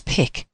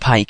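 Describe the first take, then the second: First: The name has the short 'ih' vowel, like 'sick'. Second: The name has the long 'eye' vowel, like 'bike'. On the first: The speaker calls it right. "it's Pick" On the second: The speaker calls it wrong. "it's not Pike"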